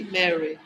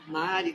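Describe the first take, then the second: First: Mary said "MEH-ree", playfully chic; playful English pronunciation of Mary; English-style Mary. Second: Mari said "MAH-ree", with an open "ah"; Portuguese-style Mari. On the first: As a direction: give Mary its English open "eh". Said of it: "É chique Mary". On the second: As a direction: give Mari its Brazilian "ah" vowel. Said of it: "Mari também". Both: Shown as a demonstration.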